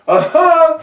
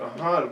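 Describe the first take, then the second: First: It is said loudly, with high intensity. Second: It is said quietly, with low intensity.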